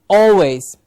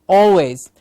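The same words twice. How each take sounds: The two takes are said the same way.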